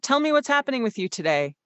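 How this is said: It is loud but in a medium, steady pitch.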